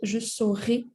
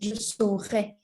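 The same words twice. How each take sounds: First: The final vowel is not the 'eh' sound. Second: The final vowel sounds like 'eh'. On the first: It is not the future tense. The speaker calls it wrong. "if you pronounce it je saurais, that's not the future" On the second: It is the future tense. The speaker calls it right. "The future you pronounce it je saurais"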